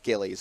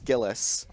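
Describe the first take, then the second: First: The name is said as Gillies. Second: The name is said as Gillis. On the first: The speaker calls it wrong. "I thought it was Gillies" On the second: The speaker calls it right. "I believe it's Gillis"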